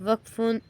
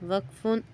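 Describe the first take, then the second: Both takes have the same delivery.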